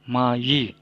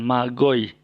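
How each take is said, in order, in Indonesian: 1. Konsonan di tengah adalah bunyi Y. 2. Konsonan di tengah adalah bunyi G keras. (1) "Ma yi, bukan magoy" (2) "bukan magoy"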